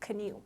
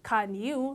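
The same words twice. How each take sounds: First: The two words are blended into one reduced form. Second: The two words are pronounced fully and separately. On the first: "you can say" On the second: "instead of saying"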